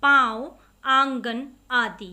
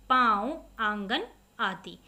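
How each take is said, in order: First: पाँव and आंगन called out loud, vowels through nose and mouth, आंगन slow; teacher booms the nasal example words; loud nasal demo. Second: Said in the usual way. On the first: Shown as a demonstration. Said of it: "नाक और मुख दोनों से बोले गए". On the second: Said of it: "आप इनका उच्चारण करके देखिए".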